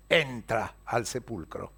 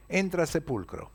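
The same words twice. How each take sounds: First: Entra al sepulcro drawn out slow and low; slow emphasis. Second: Said in the usual way. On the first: A narrator's reading. Pedro impulsively enters tomb.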